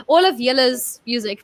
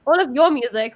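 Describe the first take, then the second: First: Awkward go at saying "Yella's" for y'all's; attempted y'all's. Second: Said in the usual way. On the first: Shown as a demonstration. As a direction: try out "Yella's" as a borrowed Southern y'all's. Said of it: "that doesn't quite work". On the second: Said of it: "we'll stick with that for now".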